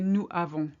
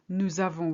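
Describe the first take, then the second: First: The two words are said apart without z. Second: The s of nous runs into avons as z. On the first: The speaker calls it wrong. "we don't say nous avons" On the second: The speaker calls it right. "Notice that we link here"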